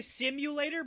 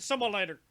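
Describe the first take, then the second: First: The word is pronounced fully and clearly. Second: The word is slurred, sounding close to 'similar'. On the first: This is the intended word. "He he was trying to say simulator" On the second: This is how someone else actually said it. "but he said simulator because that's how he says things"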